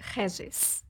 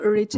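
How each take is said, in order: First: The name is pronounced the Portuguese way. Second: The name is pronounced the English way. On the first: "like in Portuguese, it's really Regis" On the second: "do you want me to say in English"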